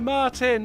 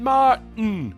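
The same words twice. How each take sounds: First: The t in the middle is clearly pronounced. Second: The t in the middle is swallowed. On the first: "they're not going" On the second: "the last part of your name is just a sound"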